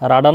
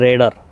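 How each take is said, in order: First: The first vowel sounds like 'ah'. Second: The first vowel sounds like 'eh'. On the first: This is the commonly known form. The speaker calls it wrong. "যদিও বা আমরা রাডার নামেই চিনি" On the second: This is the correct form. The speaker calls it right. "সঠিক উচ্চারণ হচ্ছে রেডার"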